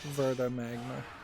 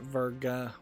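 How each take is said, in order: First: The middle consonant is not a G sound. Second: The middle consonant is a G sound. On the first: The speaker calls it right. "I've been mispronouncing it. It's, it's Verdia Magma, or Verda Magma" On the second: The speaker calls it wrong. "Not Verga with a G"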